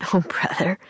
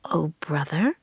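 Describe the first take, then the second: First: Half-breath, uneasy aside; a touch of embarrassed unease; nervous laugh. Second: "Oh, brother" turned into a question, rising at the end; puzzled echo. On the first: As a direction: brush it off nervously. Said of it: "said Jack with a nervous laugh". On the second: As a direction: repeat "Oh, brother" uncomprehendingly, lifting BROTHER. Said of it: "repeated Priscilla". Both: A narrator's reading.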